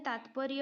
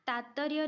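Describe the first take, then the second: First: तात्पर्य with a clear "tp", taatparya; correct pronunciation. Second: तात्पर्य without its "p", taattarya; wrong pronunciation. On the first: Teacher giving the correct spelling, तात्पर्य as "taatparya". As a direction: sound the "p" in तात्पर्य. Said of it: "होता है". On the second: Teacher rejecting a misspelling, तात्पर्य said as "taattarya". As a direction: double the "t" in तात्पर्य and drop the "p". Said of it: "नहीं होता है". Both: Shown as a demonstration.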